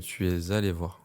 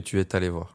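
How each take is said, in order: First: 'Es' links to 'allé' in the standard way. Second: 'Es' links to 'allé' with a faulty liaison. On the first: The speaker calls it right. "on dit que" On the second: The speaker calls it wrong. "pas que ... tu fais souvent l'erreur de liaison"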